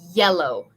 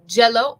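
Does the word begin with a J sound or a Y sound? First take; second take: Y sound; J sound. First: It begins with a soft Y sound. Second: It begins with a hard J sound. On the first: The speaker calls it right. "we want to say yellow" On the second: The speaker calls it wrong. "we don't want to say jello"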